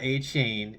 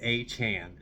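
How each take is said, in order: First: The second syllable rhymes with 'rain'. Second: The second syllable rhymes with 'ran'. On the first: The speaker calls it wrong. "not A. Chain" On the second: The speaker calls it right. "It's A. Chan"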